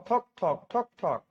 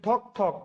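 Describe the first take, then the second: First: Slow, evenly spaced knock-knock; slow knocking demo. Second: Said in the usual way. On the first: Shown as a demonstration. Teacher demonstrating the knock sound to students, slow and spaced. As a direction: tap out ঠক ঠক slowly like knocking on a door. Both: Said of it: "বলছি ঠক ঠক".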